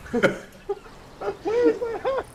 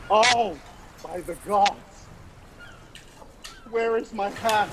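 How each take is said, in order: First: Very high, very slow wail of where is my hat; dragged-out high squealing cry; desperate wailing shout. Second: High, loud, panicked cry for a lost hat; high panicked yell, stretched slow; frantic pirate yelling. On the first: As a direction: wail it like the hat is gone forever. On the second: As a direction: shout like a frantic castaway. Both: Acted. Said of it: "and he's like".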